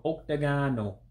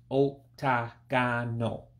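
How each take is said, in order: First: Octagonal in one flowing word, ohk-tah-GAH-noh; more natural. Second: Octagonal slowly broken up, ohk, tah, gah, noh; syllable by syllable. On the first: Saying it again for learners, more natural. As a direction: run octagonal together naturally, lifted on gah. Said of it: "say it again, uh, more natural". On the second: Breaking the word down for learners, syllable by syllable. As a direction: spell out octagonal in slow, separate syllables. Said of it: "it's just a few syllables". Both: Shown as a demonstration.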